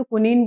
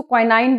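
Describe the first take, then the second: First: क्विनीन with a long "ee" ending, kwi-NEEN; क्विनीन as kwi-neen, the other reading of quinine; quinine said kwin-een. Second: क्विनाइन with a long final "aain", kwi-NAAIN; क्विनाइन as kwi-naain, like English "quinine"; quinine said kwin-ine. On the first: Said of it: "कोई लोग इसको क्विनीन बोलते हैं". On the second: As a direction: say क्विनाइन ending in the "-ine" of "wine". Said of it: "कई लोग इसको क्विनाइन बोलते हैं". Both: Shown as a demonstration.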